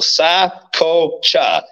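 The name is split into three separate syllables. "I break it down into three syllables for people"

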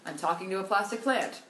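It is said with lively, joking inflection. The line is delivered as a joke. The speaker calls it right. "so it should have been like"

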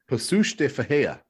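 The name is said with Portuguese sounds. The speaker calls it right. "My understanding, thank you to Lewis"

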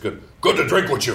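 It is said in a broad Chicago accent. "which is the way we say it in Chicago"

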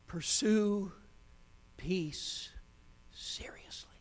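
It is said as one falling statement.

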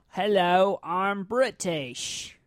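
The fake British accent is heavily exaggerated.

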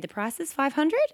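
The pitch rises at the end. The speaker sounds unsure of herself. The speaker calls it wrong. "One sounds like I'm not sure of myself"

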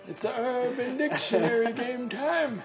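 It is said in a raspy voice.

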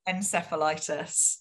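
It is said with a North American pronunciation. "but in North America, okay. It's encephalitis"

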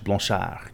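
The name is said with a French accent.

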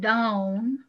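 It is said in a Southern accent. "when I say it with my native accent"

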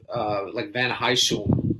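The name is said with a Dutch pronunciation. "I think Dutch would be something like"

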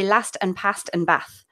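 The vowels are short, as in a Manchester accent.

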